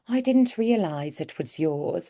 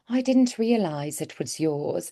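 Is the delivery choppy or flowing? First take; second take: flowing; flowing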